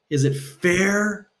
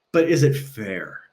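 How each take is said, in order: First: "Is it fair?" higher and very slow, "fair" drawn out; emphatic repeat. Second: Said in the usual way. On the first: Shown as a demonstration. Speaker presses the fairness question about Teslas, slow and pointed. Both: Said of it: "asks the question twice".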